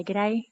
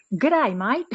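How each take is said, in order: First: A casual Australian "G'day"; plain Australian g'day. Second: Overdone Australian. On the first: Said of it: "You can say". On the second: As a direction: overplay the Australian "G'day, mate". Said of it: "That's overexpressing". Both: Shown as a demonstration.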